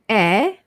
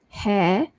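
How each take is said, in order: First: The H at the start is silent. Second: The H at the start is sounded. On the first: The speaker calls it right. "silent H" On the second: The speaker calls it wrong. "So it's not hair"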